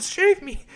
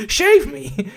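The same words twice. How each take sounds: First: High damsel plea, shave said plainly; fluttering cries for help. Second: Shave me said through laughter; laughing repeat. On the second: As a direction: laugh it out again, high. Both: Retold or imitated. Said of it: "she's like".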